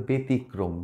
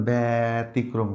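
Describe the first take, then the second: First: "ব্যতিক্রম" with short closed e, be-tikrom; correct be vowel. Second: "ব্যতিক্রম" with long open bæ, bæ-tikrom; wrong bæ vowel. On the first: Teacher corrects for students, "ব্যতিক্রম" as be-tikrom. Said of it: "এটা হবে ব্যতিক্রম". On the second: Teacher shows what to avoid, "ব্যতিক্রম" as drawn-out bæ-tikrom. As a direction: drag the mistaken bæ at the start of "ব্যতিক্রম". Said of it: "এটা কিন্তু আর ব্যতিক্রম না". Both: Shown as a demonstration.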